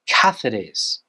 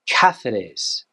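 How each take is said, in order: The two takes are said the same way.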